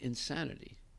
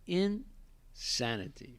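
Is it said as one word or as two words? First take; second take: one word; two words. First: It is run together as one word. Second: It is split into two separate words. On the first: The person is crazy. The speaker calls it wrong. "he said insanity, crazy" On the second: The person is in a state of saneness. The speaker calls it right. "It's two words"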